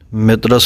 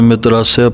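First: The word ends in a plain 's' sound. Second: The word ends in a light 'sia' sound. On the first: The speaker calls it wrong. "ਮਿਤਰਸ ਨਹੀਂ ਪੜ੍ਹਨਾ" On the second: The speaker calls it right. "ਸੱਸੇ ਨੂੰ ਸੂਖਮ ਜਿਹੀ ਸਿਆਰੀ ਅਤੇ ਐੜਾ ਮੁਕਤਾ"

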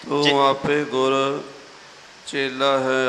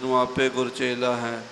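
First: There is a pause within the phrase. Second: The phrase runs together without a pause. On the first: The speaker calls it right. "ਇਹ ਵਿਸਰਾਮ ਆਪ ਜੀ ਨੇ ਸਰਵਣ ਕੀਤਾ ਹੈ" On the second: The speaker calls it wrong. "ਆਮ ਤੌਰ 'ਤੇ ਇਕੱਠਾ ਹੀ ਕਰ ਜਾਂਦੇ ... ਇਸ ਤਰ੍ਹਾਂ ਨਹੀਂ ਕਰਨਾ"

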